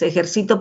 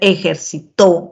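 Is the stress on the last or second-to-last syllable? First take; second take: second-to-last; last. First: The stress is on the second-to-last syllable. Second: The stress is on the last syllable. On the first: I exercise. "penúltimo lugar" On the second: He or she exercised. "al último lugar pasa a ser otra palabra con otro significado"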